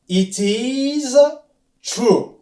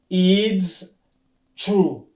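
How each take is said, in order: First: It is said as two separate words. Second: It is contracted into one short syllable. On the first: "Na anglais okoloba it is true" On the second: "Oyo na mukuse pona koloba mbangu"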